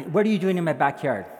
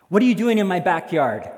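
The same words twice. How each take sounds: First: Insistent demand. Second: Loud, raised-pitch challenge; stern demand. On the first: Repeats the challenge after excuse. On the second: Homeowner confronting intruder in the park, stern demand. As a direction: demand an answer loudly. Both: Acted.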